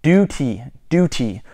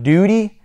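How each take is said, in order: First: "duty" with a crisp, released T; British DUTY. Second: Said in the usual way. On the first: Shown as a demonstration. Correcting viewers to British "duty", crisp T. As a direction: say "duty" as dew-tee, falling. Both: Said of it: "not duty".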